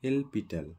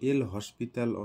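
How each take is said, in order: First: The name is said without an s sound. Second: The name is said with an s sound. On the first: This is the actual pronunciation. "এলপিটাল actually উচ্চারণ করতে লাগে" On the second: This is how many people say it. "এল হসপিটাল অনেকে বলে"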